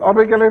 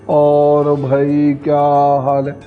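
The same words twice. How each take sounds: First: It is spoken very fast and hurried. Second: It is spoken slowly and lazily. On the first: "इतनी जल्दी भी नहीं करना है" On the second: "आलसी की तरह बोलेंगे"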